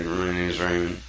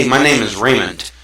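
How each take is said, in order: First: Soft, mumbled name; timid self-introduction. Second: Bright, louder, sure of yourself; confident self-introduction. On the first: Teaching kids to speak, a shy mumbled intro. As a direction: say your name meekly, almost to yourself. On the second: Teaching kids to speak, a confident hello. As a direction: greet them like you mean it. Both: Shown as a demonstration. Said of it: "or do I say".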